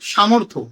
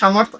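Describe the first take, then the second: First: The word is said the Bengali way. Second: The word is said the Hindi-English way. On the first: "বাংলায় এটাকে বলা হয় সামর্থ্য" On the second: "হিন্দিতে বা ইংলিশে উচ্চারণ হচ্ছে"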